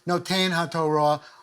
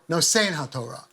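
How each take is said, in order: First: The first word has a 't' sound in the middle. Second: The first word has an 's' sound in the middle. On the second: "I really go back to the S's"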